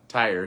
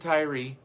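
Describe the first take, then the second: First: The name is said as one syllable. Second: The name is said as two syllables. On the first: "we won't tonight" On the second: "Some pronounce it Tyree"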